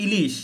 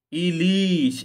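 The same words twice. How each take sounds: First: Said in the usual way. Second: "ইলিশ" with both i sounds stretched; drawn-out vowel. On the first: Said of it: "এইটুকুই শুধু পার্থক্য". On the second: Shown as a demonstration. Teacher shows students the lengthening, stretched "ইলিশ". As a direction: hold the vowels in "ইলিশ" for a moment. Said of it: "এখানে একটা আপনি একটু টান".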